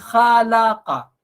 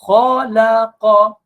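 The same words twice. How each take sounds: First: The first vowel is light, with spread lips. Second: The first vowel is heavy, with rounded lips. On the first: The speaker calls it wrong. "Bukan khalaqa. Khalaqa tu kha tu dia tak tebal" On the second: The speaker calls it right. "kha, huruf yang tebal"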